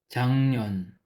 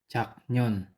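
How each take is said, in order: First: An ng sound comes before the n. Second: A k sound comes before the n. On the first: The speaker calls it right. "ang tamang pagbasa nito ay Changnyon" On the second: The speaker calls it wrong. "Ang pagbasa nito sa romanization ay Chaknyon"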